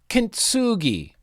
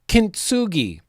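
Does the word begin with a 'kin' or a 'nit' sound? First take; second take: kin; kin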